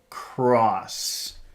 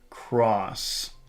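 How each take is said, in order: First: The word is pushed out with a strong airflow. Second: The same.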